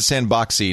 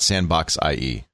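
First: The ending is one 'ee' sound. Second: The ending is the spelled letters 'I E'. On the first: The speaker calls it right. "So you do pronounce it Sandboxy" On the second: The speaker calls it wrong. "not Sandbox IE"

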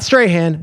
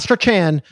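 First: The name is pronounced like 'Strahan'. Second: The name is pronounced like 'Strachan'. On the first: "Not Strahan" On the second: "not Strachan"

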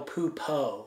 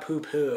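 First: The second syllable ends in an 'oh' vowel. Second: The second syllable ends in an 'oo' vowel. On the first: The speaker calls it right. "it's Miguel Pupo" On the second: The speaker calls it wrong. "Not Poo-Poo"

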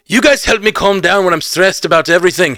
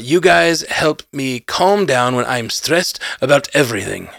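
First: It is said in a cartoonish Scottish accent. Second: It is said in a Russian-sounding accent.

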